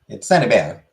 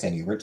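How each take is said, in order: First: The name is pronounced the French way. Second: The name is pronounced the English way. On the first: The speaker calls it right. "It's French" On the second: The speaker calls it wrong. "it's not actually pronounced Saint Hubert"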